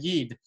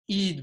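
First: The word begins with a y sound. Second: The word begins with a vowel, no y sound. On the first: This is the more polished form. "rather than" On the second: This is the typical Litvak form. "Litvaks often will say"

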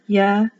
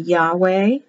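First: The middle consonant is a V sound. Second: The middle consonant is a W sound.

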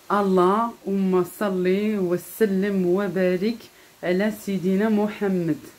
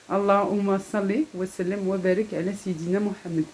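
First: It is said more slowly. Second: It is said at a faster pace.

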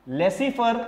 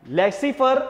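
The two takes are said the same way.

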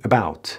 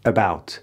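No difference in how they are said.

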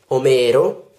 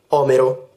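First: The stress is on the second syllable. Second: The stress is on the first syllable. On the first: It names the Greek poet. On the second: It names the arm bone.

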